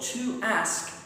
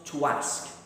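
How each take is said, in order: First: The words are said without a linking w. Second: A w sound links the two words.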